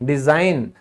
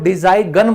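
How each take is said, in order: First: The g sound is silent. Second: The g sound is pronounced. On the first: The speaker calls it right. "क्योंकि silent है rule के हिसाब से" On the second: The speaker calls it wrong. "तो यहां हमने कभी इसको डिजाइन गन बोला है, नहीं बोला"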